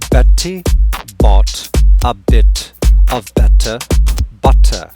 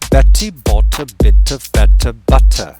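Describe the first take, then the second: First: The sentence is said at a normal speed. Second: The sentence is said at a faster speed. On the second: "Now faster"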